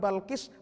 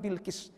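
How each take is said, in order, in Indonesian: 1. Suku kata pertama memiliki vokal a. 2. Suku kata pertama memiliki vokal i. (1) "Dibaca ba" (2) "dibaca bi"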